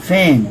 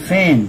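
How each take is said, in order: The two takes are said the same way.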